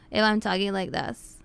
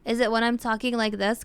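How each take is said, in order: First: Slightly lowered demo voice, not nasal; non-nasal sample with a falling end. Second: Demonstrating a clear mid-pitched voice; sample voice, mid pitch. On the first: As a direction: let the pitch settle down to show no nasality. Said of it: "This isn't nasally". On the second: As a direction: offer this voice as a sample question. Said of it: "is it like this voice?". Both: Shown as a demonstration.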